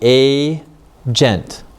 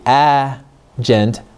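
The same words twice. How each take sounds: First: The first vowel is a long A sound. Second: The first vowel is a short A sound. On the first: The speaker calls it right. "It has a long sound" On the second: The speaker calls it wrong. "If we use a short sound instead"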